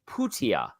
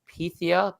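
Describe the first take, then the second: First: The name is said as Putia. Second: The name is said as it looks, Pythia. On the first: The speaker calls it right. "but it's Mikhail Putia" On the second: The speaker calls it wrong. "It looks like Pythia"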